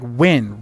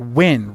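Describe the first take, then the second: First: The name is one short syllable, like 'win'. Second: The same.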